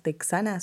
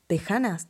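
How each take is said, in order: First: "texanas" said with a clear ks, tek-SA-nas; "texanas" pronounced with ks in the middle; ks sound. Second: "tejanas" with a throaty j sound, te-HA-nas; "tejanas" pronounced with a harsh h sound in the middle; Spanish jota. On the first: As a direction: say "texanas" spelling out the x as ks. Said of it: "no sé cómo se pronuncia". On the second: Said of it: "supongo que se pronuncian tejanas". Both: Shown as a demonstration.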